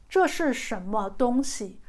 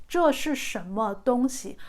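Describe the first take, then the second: Both takes have the same delivery.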